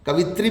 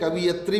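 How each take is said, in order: First: The word is said ka-vi-tri. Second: The word is said ka-vi-ya-tri. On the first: "कवित्री भी गलत है" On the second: "कवियत्री भी गलत है"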